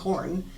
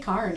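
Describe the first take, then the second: First: The vowel sounds like the one in 'core'. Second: The vowel sounds like the one in 'car'. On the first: The speaker calls it right. "and I mean corn" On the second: The speaker calls it wrong. "I'll say carn"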